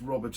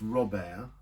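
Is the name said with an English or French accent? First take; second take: English; French. First: It is said with an English accent. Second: It is said with a French accent.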